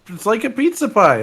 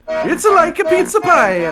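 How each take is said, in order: First: It has a mild Italian accent. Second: It has a strong Italian accent.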